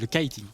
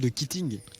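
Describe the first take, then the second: First: The word is pronounced with English-style sounds. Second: The word is pronounced with French-style sounds. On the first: The speaker calls it right. "Ça se dit le kiting" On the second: The speaker calls it wrong. "Tu dis le kitting"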